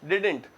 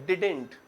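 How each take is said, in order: No difference in how they are said.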